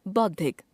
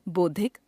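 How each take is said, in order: First: Said in the usual way. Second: बौद्धिक as "boddhik", close o for au; wrong pronunciation. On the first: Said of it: "शुद्ध". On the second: Shown as a demonstration. Teacher showing an o-au error, बौद्धिक said as "boddhik". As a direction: narrow the first vowel of बौद्धिक, rising. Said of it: "अशुद्ध".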